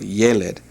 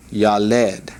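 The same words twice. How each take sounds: First: Yeled with the stress on the opening YE; stress on first syllable. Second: Yaled with the stress on the final LED; stress on second syllable. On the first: Hebrew teacher pointing out the accent above the yod, stress on the start of yeled. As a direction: say yeled as YE-led, second syllable light. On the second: Hebrew teacher misreading the word before correcting it, stress on the end of yaled. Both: Shown as a demonstration. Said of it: "see the accent above the yod".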